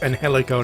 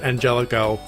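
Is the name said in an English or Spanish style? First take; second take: Spanish; English. First: The name is pronounced in a Spanish way. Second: The name is pronounced in an English way. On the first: The speaker calls it right. "that's Angelico" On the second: The speaker calls it wrong. "not Angelico"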